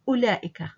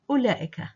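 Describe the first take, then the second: Both takes have the same delivery.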